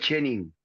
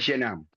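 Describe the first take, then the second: First: It is pronounced with a Spanish accent. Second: It is pronounced with a French accent. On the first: "en argentino y en idioma español es chenin" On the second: "Si lo decís en francés es chenin"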